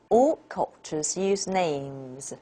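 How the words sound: The main stress falls on the word names. Names is the new, important information. "the names is the information focus, and this is the nucleus"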